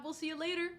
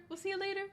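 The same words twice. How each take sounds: First: Said in the usual way. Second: Much higher, lilting see you later; sing-song goodbye. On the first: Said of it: "repeated goodbye". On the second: Real, not acted. Streamer waving off a napping viewer, sing-song high. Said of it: "repeated goodbye higher".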